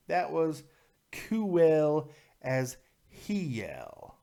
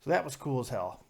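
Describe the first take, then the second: First: Drawn-out emphasis. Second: Said in the usual way. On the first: Real, not acted. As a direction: stretch COOL and HELL slowly, pausing between. Repeats phrase slowly for emphasis.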